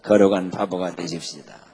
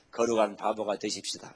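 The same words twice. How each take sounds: First: Congregational response. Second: Lead-in line. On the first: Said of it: "시작". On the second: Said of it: "한번 인사 한번 하십시다". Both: Shown as a demonstration.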